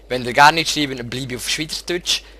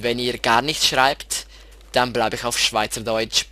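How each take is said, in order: First: It is spoken in Swiss German dialect. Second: It is spoken in Standard German.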